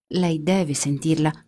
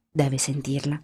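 First: Slow, with weight on "deve"; insistent. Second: Said in the usual way. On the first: A narrator's reading. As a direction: lean hard on "deve", spelling it out. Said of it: "repeated instruction, insisting". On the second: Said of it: "repeated instruction".

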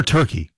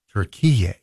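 First: "Turkey" as TUR-kee, like the bird; familiar English pronunciation. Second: "Turkey" drawn into three syllables, tur-KEE-yay; native pronunciation. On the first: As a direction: say "Turkey" with two syllables, TUR first. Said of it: "for those of you in Hallsville". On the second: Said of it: "it's always been pronounced Turkey". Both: Shown as a demonstration.

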